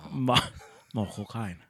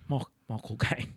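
First: Michael Caine, Cockney voice; better Michael Caine impression. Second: Clumsy Cockney-ish Michael Caine; bad Michael Caine impression. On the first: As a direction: try Caine again, a little better. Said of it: "That's better". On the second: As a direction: stumble into a Caine voice. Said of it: "Your impression is so bad".

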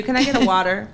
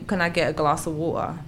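First: "water" in American style. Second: "water" said British, t dropped. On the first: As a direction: switch to an American-sounding "water". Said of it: "I just don't wanna say water". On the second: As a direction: say "water" as London "wo-uh". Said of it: "'Cause I'll say". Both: Shown as a demonstration.

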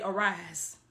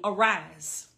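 First: Said in the usual way. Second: Arise drawn out low and weighty; emphasised arise. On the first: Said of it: "I want y'all to put that in the comments". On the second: Shown as a demonstration. Preacher stressing the verse for the congregation, low and weighty. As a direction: lean hard on Arise as the key word. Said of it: "I'm gonna put emphasis on this".

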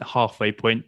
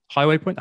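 First: "halfway" said correctly as "haf-way" with a broad a; corrected word. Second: "Highway" said for halfway, clear "high-way" vowel; slip of the tongue. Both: Shown as a demonstration. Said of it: "Highway point, halfway point".

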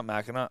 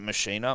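First: Machina said as MACK-uh-nuh; Machina as MACK-uh-nuh, softer; alternative pronunciation. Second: Machina said as muh-SHEE-nuh; Machina as muh-SHEE-nuh, questioning; alternative pronunciation. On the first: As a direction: say Machina with a hard k, stressing MACK. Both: Shown as a demonstration. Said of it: "No one knows how to pronounce".

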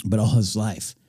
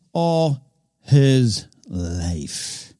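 First: Said in the usual way. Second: All his life, drawn out very slowly and higher; slow dramatic repeat. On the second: Shown as a demonstration. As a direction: stretch out every word of all his life. Repeats the phrase for weight.

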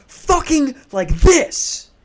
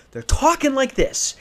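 First: High, punched mock yell; imitated yelling. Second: High, strained mock argument; imitated heated arguing. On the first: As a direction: burst out mid-sentence like a screaming neighbour. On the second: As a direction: raise the pitch as if squabbling, without full volume. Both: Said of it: "they're yelling at each other".

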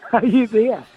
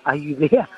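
First: Higher-pitched repeat, checking the line; retold insistent call. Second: Checking if Nan is there; retold tentative call. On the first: Grandson on phone to silent grandmother, retold insistent call. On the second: Grandson on phone to silent grandmother, tentative retold call.

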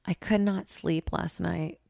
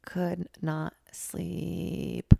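First: Said in the usual way. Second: Slow, weary repeat of "Could not sleep"; drawn-out emphasis. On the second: Real, not acted. Repeating to listeners how bad the night was, very slow. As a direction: drag out each word of "Could not sleep".

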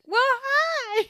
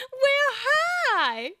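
First: Very high, loud cat voice; snooty bored cat. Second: Very high, loud laughing cat voice; snooty bored cat. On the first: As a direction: chirp it like a smug cat. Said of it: "then the cat said". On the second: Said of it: "Wasn't there a cat that said". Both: Retold or imitated.

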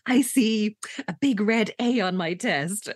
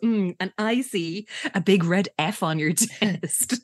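First: Slow, drawn-out mock psychic vision; psychic trance. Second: Slow sarcastic imitation of a psychic; mocking copy. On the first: [name] foresees her own test result, mock psychic. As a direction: play at seeing the future, slowly. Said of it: "rubs her temples with her eyes closed". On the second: [name] copies [name]'s psychic vision, sarcastic. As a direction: copy the fake trance to tease, slowly. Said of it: "copies her and goes".

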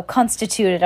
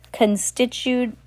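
First: Constituted said as kɑ̃nstətutəd, confident; constituted, corrected and settled; corrected word. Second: Constitute said slowly and unsure, kənstɪtud; constitute, slow, uncertain; misread word. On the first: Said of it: "Oh, constituted". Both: Shown as a demonstration.

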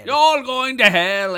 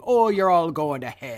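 First: Hammed-up scolding mother. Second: Mock Irish mother. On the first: Echoes the mother's line. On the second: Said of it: "Mother just saying".

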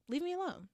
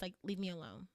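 First: Higher, exasperated leave me alone; fed up, push them away with a raised cry; exasperated plea. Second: Said in the usual way. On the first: Real, not acted. Host fed up with haters tells them off, exasperated. Venting at haters on her podcast.

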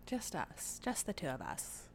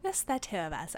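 First: Put-on Mid-Atlantic accent. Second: Put-on light Mid-Atlantic accent, old-film tone. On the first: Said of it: "Little accent?". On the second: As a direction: say it like a 1940s Mid-Atlantic announcer. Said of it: "I'm trying Mid-Atlantic".

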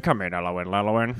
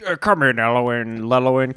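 First: Low, muffled radio call; ham radio voice. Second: Said in the usual way. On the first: Acted. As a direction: talk like over a CB radio. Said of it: "you dropped your ham radio voice". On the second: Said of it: "same call repeated in radio voice".

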